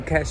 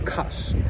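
First: The vowel sounds like 'eh'. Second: The vowel sounds like 'ah'. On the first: This is the usual way to say it. "не кэш" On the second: This is how people say it locally. "Я сейчас буду тоже говорить каш"

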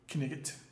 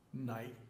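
First: The K at the start is pronounced. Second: The K at the start is silent. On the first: This is the older regional pronunciation. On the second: This is the modern pronunciation.

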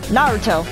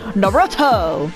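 First: The name is said without an American accent. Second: The name is said with an American accent. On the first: The speaker calls it right. "the correct way to say it is Naruto" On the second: The speaker calls it wrong. "I've heard people in the States say"

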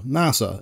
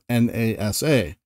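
First: It is said as one word. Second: It is said as four separate letters. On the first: "NASA will most likely be spoken out as, well, NASA" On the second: "instead of N-A-S-A"

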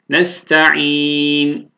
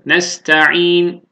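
First: The vowel before the final n is held medium. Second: The vowel before the final n is held short. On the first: "tevasut alalım" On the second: "Kasır alalım"

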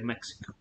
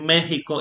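First: The middle consonant is a ks sound. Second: The middle consonant is a throaty h sound. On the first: The speaker calls it wrong. "Nobody would say Mexico" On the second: The speaker calls it right. "we say Mexico, even though it's written with an X"

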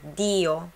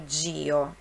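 First: The d is a plain, hard d sound. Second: The d sounds like 'dj' before the i. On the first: The speaker calls it right. "é DIO" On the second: The speaker calls it wrong. "não é DIO"

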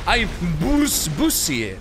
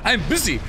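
First: The first vowel in busy sounds like u. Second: The first vowel in busy sounds like i. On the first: The speaker calls it wrong. "Que eso está mal con la U" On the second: The speaker calls it right. "qué bien lo pronunciaba eso"

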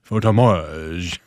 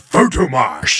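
First: It is said with a French accent. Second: It is said with an American accent.

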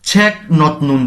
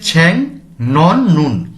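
First: The first syllable ends in a k sound. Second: The first syllable ends in an ng sound. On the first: "দেখলে" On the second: "উচ্চারণ হচ্ছে"

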